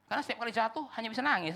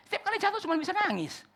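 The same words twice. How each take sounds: First: Said in the usual way. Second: The line "Setiap kali jatuh cuman bisa nangis" said high and louder; exasperated preacher, voice climbing; building exasperation. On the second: Shown as a demonstration. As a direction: push the repeat to a pleading peak. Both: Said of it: "repeated, building".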